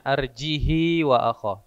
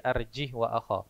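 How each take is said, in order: First: The word arjih ends with a vowel sound. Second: The word arjih ends without a vowel sound. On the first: The speaker calls it right. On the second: The speaker calls it wrong.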